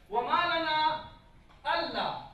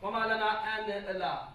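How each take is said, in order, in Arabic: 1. تُدغم النون في اللام، فتُنطق "alla". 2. تُنطق النون منفصلةً قبل "la". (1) "وردت حتى في رسم القرآن" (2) "ما نقرأ وما لنا أن لا"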